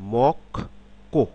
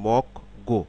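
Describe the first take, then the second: First: The second syllable starts with a tense k sound. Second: The second syllable starts with a soft g sound. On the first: The speaker calls it right. "কিন্তু আসলে এটা উচ্চারণ হবে" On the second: The speaker calls it wrong. "Syllable অনুসারে যদি ভাগ আমরা উচ্চারণ করি"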